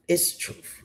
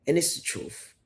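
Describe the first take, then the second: First: Breathy whisper, no voice; whispered aside. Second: Said in the usual way. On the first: Real, not acted. To her viewers, repeating her claim in a whisper. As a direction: lean in and whisper it like a secret.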